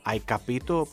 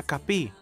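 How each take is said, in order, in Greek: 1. Λέγεται η πλήρης τυπική μορφή της φράσης. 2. Λέγεται μια συντομευμένη μορφή με αρχικό φωνήεν. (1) "το χαρακτηριστικό παράδειγμα" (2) "κεντρική Ιταλία, κάτω από την Αγκόνα, λένε"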